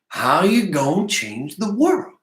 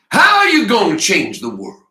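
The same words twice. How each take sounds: First: It is mumbled quietly. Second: It is screamed loudly.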